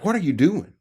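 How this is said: It is asked in an accusing, confrontational tone. It is an accusation framed as a question. "it's an accusation framed as a question"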